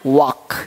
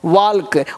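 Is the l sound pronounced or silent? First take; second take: silent; pronounced. First: No l sound is heard before the k. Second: An l sound is heard before the k. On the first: The speaker calls it right. "एल क्या रहता है, silent रहता है" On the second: The speaker calls it wrong. "वाल्क नहीं पढ़ना है"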